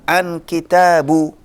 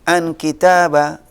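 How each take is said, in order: First: The word kitab ends with a u vowel. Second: The word kitab ends with an a vowel. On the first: "Nggak bisa kita baca" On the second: "Nggak bisa kita baca"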